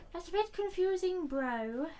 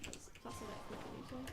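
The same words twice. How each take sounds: First: Higher, louder exasperated call; loud baffled outburst at the screen; loud exclamation. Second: Puzzled murmur under the breath; quiet mutter. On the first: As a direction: shout the line again in disbelief. Repeats the line much louder. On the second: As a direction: mumble it to yourself, barely audible. Muttered then repeated loudly. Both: Real, not acted.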